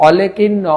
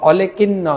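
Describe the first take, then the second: The two takes are said the same way.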